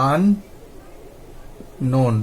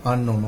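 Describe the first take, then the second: First: unknown broken in two, long pause between আন and নোন; split into syllables. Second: Said in the usual way. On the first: Shown as a demonstration. Teacher breaking a word down for learners, split by syllable. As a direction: say unknown as two widely separated parts. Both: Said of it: "তাহলে আমরা ভেঙে নিলাম".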